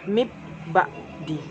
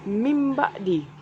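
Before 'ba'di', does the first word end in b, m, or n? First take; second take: b; m. First: The first word ends with a b sound. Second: The first word ends with an m sound. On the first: The speaker calls it wrong. "Dan juga bukan dibaca mib ba'di" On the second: The speaker calls it right. "Bacanya adalah mim ba'di"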